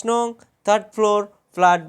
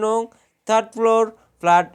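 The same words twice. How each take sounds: The two takes are said the same way.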